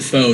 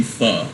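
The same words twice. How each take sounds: First: "pho" rhyming with "go"; common pronunciation. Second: "pho" with an "uh" vowel; corrected pronunciation. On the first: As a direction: say "pho" as "foh". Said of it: "Everyone pronounces it pho". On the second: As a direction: say "pho" as "fuh". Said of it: "It's actually pho". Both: Shown as a demonstration.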